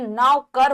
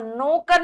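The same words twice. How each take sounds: First: नौकर as 'nau-kar'; au sound. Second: नौकर with an o, 'no-kar'; mispronounced नौकर. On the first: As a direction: open au in the first syllable of नौकर. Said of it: "औ आएगा". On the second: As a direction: say नौकर wrongly as 'nokar'. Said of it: "नौकर नहीं". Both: Shown as a demonstration.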